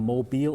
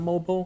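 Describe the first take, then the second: First: The word is pronounced the French way. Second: The word is pronounced the usual English way. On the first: It names the city. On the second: It means the phone sense of the word.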